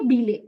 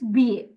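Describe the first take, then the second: First: The double L is sounded as an L. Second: The double L is sounded as a Y. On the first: The speaker calls it wrong. "You never say bile" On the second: The speaker calls it right. "Whenever your double L's come together, I L L E comes together, it's B A"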